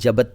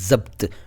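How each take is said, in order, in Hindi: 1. शब्द की शुरुआत j ध्वनि से होती है। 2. शब्द की शुरुआत z ध्वनि से होती है। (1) "जबत नहीं"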